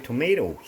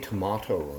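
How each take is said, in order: First: Tomato is said with an American pronunciation. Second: Tomato is said with a non-American pronunciation. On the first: "In America, you say tomato" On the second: "We say tomato"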